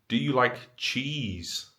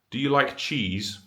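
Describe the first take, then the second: First: It sounds loaded, hinting at something more. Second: It sounds like a plain, neutral question. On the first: It is not a literal question and points to something else. "they can hear within the intonation that there is something else going on" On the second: It is a literal question about liking cheese. "a literal conversation with a literalist"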